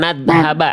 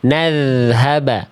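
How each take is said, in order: First: The dh sound is bitten and stopped. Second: The dh sound flows softly without stopping. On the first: The speaker calls it wrong. "biar bunyinya bukan nadhaba" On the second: The speaker calls it right. "Suaranya jangan digigit, dialirkan"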